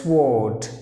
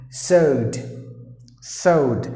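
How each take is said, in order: First: "sword" said with the W sounded, SWORD; common mispronunciation. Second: "sword" as SOHD, silent W and R; correct pronunciation. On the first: Teacher imitates learners' error, "sword" with audible W. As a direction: sound the W in "sword", s-word run together. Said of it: "most of the E S L speakers will pronounce the word as". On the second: Teacher models for learners, "sword" as sohd without W. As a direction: drop the W and R from "sword", saying sohd. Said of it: "So you have to pronounce the word as". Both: Shown as a demonstration.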